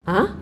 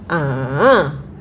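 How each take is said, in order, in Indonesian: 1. Nadanya naik seperti pertanyaan yang kaget. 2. Nadanya turun dulu lalu naik lagi. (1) "seperti kita lagi kayak heran gitu loh" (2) "turun ke bawah, naik ke atas"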